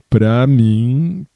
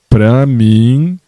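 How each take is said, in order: First: The phrase is said at a normal, softer volume. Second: The phrase is said at a louder volume.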